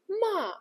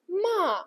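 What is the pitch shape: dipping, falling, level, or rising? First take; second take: falling; falling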